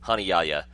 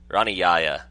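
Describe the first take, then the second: First: The name begins with an H sound. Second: The name begins with an English R sound. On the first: The speaker calls it right. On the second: The speaker calls it wrong.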